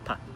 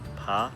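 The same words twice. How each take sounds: First: It is light and unstressed, fading out. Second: The pitch rises through the syllable. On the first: "the neutral tone" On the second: "a rising sound for the second tone"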